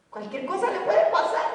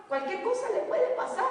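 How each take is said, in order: First: "puede" said through a chuckle; a joking, amused take with a laugh on "puede". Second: "puede" raised high; a serious, raised warning on "puede"; stress on puede. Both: Shown as a demonstration.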